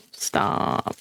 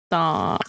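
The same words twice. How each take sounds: First: Breathless whispered Stop. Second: Said in the usual way. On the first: Real, not acted. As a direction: whisper the word Stop as if pleading. Begging the slime to stop sticking.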